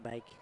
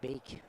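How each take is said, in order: First: The vowel sounds like 'ay' in bake. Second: The vowel sounds like 'ee' in beak. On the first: The speaker calls it right. "not Bake" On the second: The speaker calls it wrong. "I'm going to say Beek"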